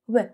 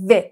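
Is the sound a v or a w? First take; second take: w; v. First: The sound is a w with rounded lips. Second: The sound is a v with teeth on lip. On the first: The speaker calls it right. "باید بگی و" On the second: The speaker calls it wrong. "نباید بگی و"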